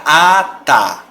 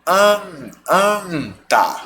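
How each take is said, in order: First: ATA with a long open oral A; slow ATA, first A through the mouth; oral vowel. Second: ANTA with a held nasal AN; nasal vowel. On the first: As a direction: draw out ATA without nasality. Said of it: "Se você tira o N, fica". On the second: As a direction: sound out AN, then ANTA, through the nose. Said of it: "Se você põe o N". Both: Shown as a demonstration.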